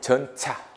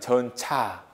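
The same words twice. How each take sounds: First: The ch sound is made at the tooth ridge. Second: The ch sound is made at the hard palate. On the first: This is how it was said in the past. "그때는 전차. 차. 치조. 파찰음이었다" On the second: This is how it is said today. "지금은 이 발음이죠"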